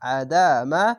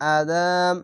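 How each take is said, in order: First: The word ends on an open vowel. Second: The word ends on a stopped consonant. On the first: The reading continues without a stop. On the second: The reader stops at this word.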